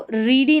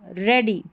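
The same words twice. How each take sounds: First: रीडी with a long "ee"; wrong reading of ready. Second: रेडी with a short "e"; ready with ea as "e", रेडी; correct reading of ready. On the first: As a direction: say रीडी like "reedy". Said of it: "रीडी नहीं पढ़ना है". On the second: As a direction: say रेडी to rhyme with "steady". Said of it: "इसको रीडी नहीं पढ़ना है". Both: Shown as a demonstration.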